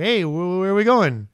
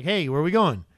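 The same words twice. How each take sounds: First: High, loud pestering question; insistent asking. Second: Said in the usual way. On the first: Acted. Silas pressing Paul for a destination, insistent. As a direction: stretch it out louder, demanding to know.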